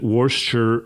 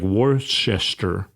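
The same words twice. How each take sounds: First: The name is said in a shortened, contracted form. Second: Every written syllable of the name is pronounced. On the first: This is how people actually say the name. "everyone pronounces it Worcester" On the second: This is how the name looks in writing. "it looks like Worcester"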